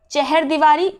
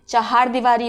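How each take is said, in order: First: चहर, छोटे अ के साथ; wrong pronunciation. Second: चहार with a long second a, chahaar; चहार, बड़े आ के साथ; correct pronunciation. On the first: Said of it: "चहर दीवारी गलत है". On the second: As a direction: stress चहार as cha-haar. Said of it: "चहार दीवारी होता है". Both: Shown as a demonstration.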